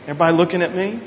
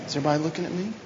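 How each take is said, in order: First: Said in the usual way. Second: Softer repeat. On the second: Shown as a demonstration. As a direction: drop the volume and ask again gently. Repeats the question much softer.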